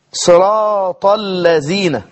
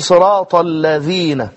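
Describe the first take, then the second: First: الذين said as زين, no tongue out, slowly; نطق الذال زايا; Zay for Dhal. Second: الذين with the tongue out, a clear ذ, slowly; نطق الذال صحيحة; proper Dhal. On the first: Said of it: "لم يخرج لسانه ولم يقل الذين". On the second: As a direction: say الذين with ذ between the teeth. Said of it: "وينطقها ذالا". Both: Shown as a demonstration.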